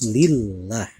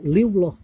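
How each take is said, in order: First: The lam in Allah is pronounced thin. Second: The lam in Allah is pronounced thick. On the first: The speaker calls it right. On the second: The speaker calls it wrong. "tidak dibenarkan membaca"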